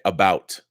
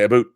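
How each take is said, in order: First: The vowel sounds like 'ow', standard American. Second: The vowel sounds like 'oo', Canadian style. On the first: "Canadians do not say about" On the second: "They say aboot"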